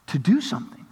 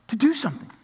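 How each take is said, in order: First: Said in the usual way. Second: "To do something" repeated much higher, leaning hard on "do"; "do" lifted high and hit hard; emphatic repeat. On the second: Shown as a demonstration. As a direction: drive home "do" with a high, pointed repeat.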